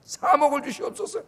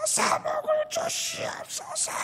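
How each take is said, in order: First: Higher, pleading prayer with a rising end; mock fervent prayer. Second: High, slow, thin pleading prayer; mock pleading prayer. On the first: Preacher acts out a church praying for money, earnest and pleading. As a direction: plead earnestly, ending upward. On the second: Preacher mocks a prayer for money, in a high slow whine. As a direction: beg like a greedy child for money.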